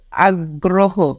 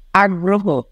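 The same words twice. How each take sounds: First: আগ্রহ drawn out slowly, doubled g, "আগ্গ্রোহো"; slow model pronunciation. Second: আগ্রহ said as "আগ্রোহো" at normal pace; standard pronunciation. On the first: Teacher slowly models আগ্রহ for students to repeat. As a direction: stretch আগ্রহ out so each sound is heard. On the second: Teacher names আগ্রহ plainly for the class. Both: Shown as a demonstration. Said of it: "উচ্চারণ অনুশীলন করো".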